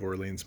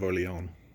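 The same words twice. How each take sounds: First: Orleans is said with an English-style pronunciation. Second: Orleans is said with a French-style pronunciation. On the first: This is how most people read it. The speaker calls it wrong. "people are gonna read it like Maid of Orleans" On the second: This is closer to the original language. The speaker calls it right. "more the right pronunciation"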